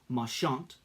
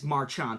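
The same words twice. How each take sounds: First: The name is said with a French-leaning pronunciation. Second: The name is said with a plain English pronunciation. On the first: The speaker calls it right. "more of a French-leaning pronunciation" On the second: The speaker calls it wrong. "I don't think it's Marchant"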